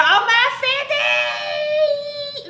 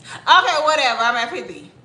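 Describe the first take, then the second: First: High drawn-out squeal; over-the-top celebratory shriek; excited celebration. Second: Offhand whatever delivery; mock indifference. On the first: Pretend. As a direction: squeal it, stretching the last word out long. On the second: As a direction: toss it off as no big deal. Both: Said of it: "Or should it be this way?".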